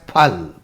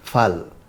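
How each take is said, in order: First: It begins with a breathy p sound. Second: It begins with an f sound. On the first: This is the original Hindi pronunciation. "a voiceless aspirated plosive" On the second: This is how speakers who know English say it. "the use of a labiodental fricative f"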